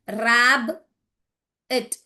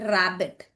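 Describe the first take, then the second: First: "rab" then a pause, then "it"; split into syllables. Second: Said in the usual way. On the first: Shown as a demonstration. Teacher showing students where rabbit splits, syllable by syllable. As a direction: break "rab" and "it" apart with a clear gap. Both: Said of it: "यहाँ देखिए".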